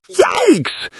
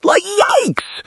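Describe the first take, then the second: First: Shocked yikes again. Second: A high, stretched yikes; shocked yikes. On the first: Vlogger repeating her reaction, high falling yikes. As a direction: echo the shock as a second punch. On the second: Vlogger reacting to the texts, high shocked yikes. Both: Acted. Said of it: "Emotional reaction".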